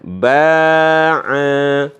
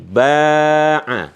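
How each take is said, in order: First: Both vowels are long. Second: Only the first vowel is long. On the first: "jadi dipanjangkan dua-duanya" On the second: "ketika ba-nya dikasih alif"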